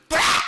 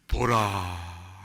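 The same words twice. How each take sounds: First: It is shouted loudly. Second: It is said softly and calmly.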